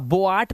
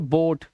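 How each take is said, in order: First: The vowel is split into o then a. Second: The vowel is a single long o sound. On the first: The speaker calls it wrong. "अब बोआट मत पढ़ना" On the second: The speaker calls it right. "इसे पढ़ेंगे"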